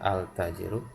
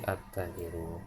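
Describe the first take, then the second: First: The article keeps a clear L sound. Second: The L merges into a doubled T sound. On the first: The speaker calls it wrong. "kita baca bukan al tajiru" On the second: The speaker calls it right. "tapi at tajiru"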